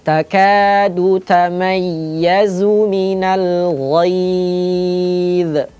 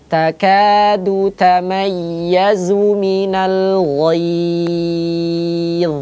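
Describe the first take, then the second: First: The final consonant is released with a bounce. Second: The final consonant flows on, thick, without bouncing. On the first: The speaker calls it wrong. "Itu kalau dipantul" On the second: The speaker calls it right. "Biarkan suaranya mengalir dengan tebal, tetap tebal"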